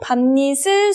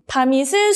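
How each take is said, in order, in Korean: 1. 다음 모음 앞에 ㄴ 소리가 하나 더 들어갑니다. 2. 받침 ㅁ이 다음 모음에 바로 이어집니다. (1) "니은 첨가가 일어나고" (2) "이렇게 연음하지 않고"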